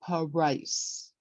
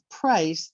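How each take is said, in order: First: The first two consonants are broken apart. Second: The first two consonants are joined together. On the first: The speaker calls it wrong. "they tend to break up those two letters" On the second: The speaker calls it right. "Instead of price"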